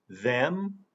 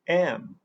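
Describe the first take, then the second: First: The word is said in its full form. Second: The word is reduced, losing its first sound.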